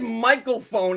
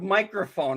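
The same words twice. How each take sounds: First: The word begins like the name Michael. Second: The word begins with a clear micro sound. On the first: The speaker calls it wrong. "you said" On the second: The speaker calls it right. "instead of microphone"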